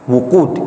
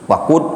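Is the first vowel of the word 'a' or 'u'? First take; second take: u; a. First: The first vowel is a rounded 'u' sound. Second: The first vowel is an open 'a' sound. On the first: It means the blazing of the fire. "qiraahnya dengan dhamma" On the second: It means fuel or firewood. "kalau di fathah itu maknanya hatab"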